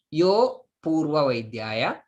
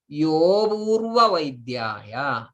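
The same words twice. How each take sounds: First: "yo purva" as two separate words, short "yo"; no hidden a. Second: "yo purva" joined, "yo" held long for the hidden a. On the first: Teacher showing what not to say, "yo" and "purva" broken apart. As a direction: cut between "yo" and "purva", no lengthened vowel. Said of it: "there is a a hidden". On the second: Teacher showing the listener the hidden a, lengthened "yo". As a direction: stretch "yo" slowly and glide into "purva". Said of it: "a a is there hidden". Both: Shown as a demonstration.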